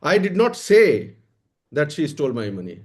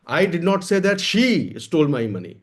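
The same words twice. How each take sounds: First: The word "say" carries the main stress. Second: The word "she" carries the main stress. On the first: It was stolen, but I never said so. "चुराया तो है पर मैंने कहा नहीं है।" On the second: Money was stolen, but not by her. "पैसा चोरी हुआ है लेकिन मैंने ये नहीं कहा कि उसने चुराया है।"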